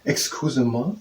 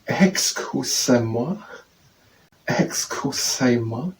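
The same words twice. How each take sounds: First: Said in the usual way. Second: "excuse-moi" very slowly, syllable by syllable; English-guide reading. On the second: Shown as a demonstration. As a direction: stretch "excuse-moi" into separate syllables, lifting the last. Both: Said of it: "We're saying in English".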